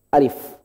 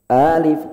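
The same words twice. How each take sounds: First: The first vowel is short and level. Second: The first vowel is long and rising. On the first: The speaker calls it right. "Cukup alif" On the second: The speaker calls it wrong. "alif itu A-nya jangan naik, jangan panjang"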